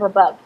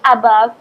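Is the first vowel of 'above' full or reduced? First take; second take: reduced; full. First: The first vowel is reduced to a schwa. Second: The first vowel is a full, unreduced vowel. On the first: The speaker calls it right. "instead of above" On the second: The speaker calls it wrong. "we tend to say above"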